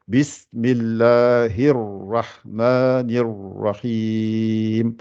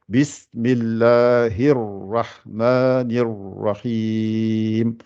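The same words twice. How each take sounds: First: The r after Bismillahi is doubled and heavy. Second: The r after Bismillahi is doubled and heavy.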